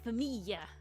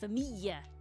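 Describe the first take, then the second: The two takes are said the same way.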